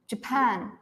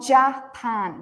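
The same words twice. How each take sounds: First: The first vowel is reduced to a weak sound. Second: The first vowel is a full, clear vowel. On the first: The speaker calls it right. "This ja becomes j" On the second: The speaker calls it wrong. "so it's not Japan"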